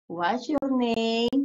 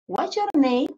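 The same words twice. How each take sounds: First: "What's your name?" very slow, each word stretched; slow pronunciation model. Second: Said in the usual way. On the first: Shown as a demonstration. Teacher drilling the pronunciation of the question, very slow. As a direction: drag out "What's your name?" so pupils hear every sound. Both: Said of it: "Pronunciation name".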